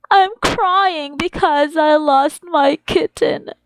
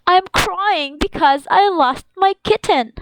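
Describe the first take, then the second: First: Slow, whiny pretend-sad voice; hammed-up sobbing kid voice; mock crying. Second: Said in the usual way. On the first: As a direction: act like a sad little child who lost a pet. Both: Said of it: "teacher reads sentence twice".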